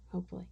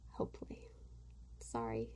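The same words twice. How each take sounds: First: Said in the usual way. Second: Breathy whispered repeat of hopefully, no voice. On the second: Shown as a demonstration. Vlogger whispering a hope to her viewers, voiceless.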